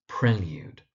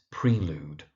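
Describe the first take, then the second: First: Prelude said PREL-yood; correct pronunciation. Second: Prelude said PREE-lood; long "ee" in prelude, no y-glide; mispronunciation. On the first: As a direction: say prelude with short "e" and a y-glide. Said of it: "so it's prelude". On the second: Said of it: "The mispronunciation you find is". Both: Shown as a demonstration.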